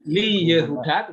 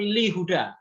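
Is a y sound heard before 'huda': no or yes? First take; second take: yes; no. First: A y sound is heard before huda. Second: No y sound is heard before huda. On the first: The speaker calls it wrong. "Jadi dia tidak Li Yehuda" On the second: The speaker calls it right. "tetapi Li Huda langsung"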